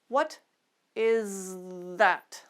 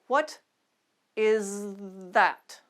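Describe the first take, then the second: The two takes are said the same way.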